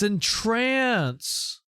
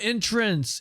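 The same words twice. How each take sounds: First: The stress is on the second syllable. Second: The stress is on the first syllable. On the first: To captivate someone. The speaker calls it right. "It's entrance" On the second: A doorway or way in. The speaker calls it wrong. "it's not entrance"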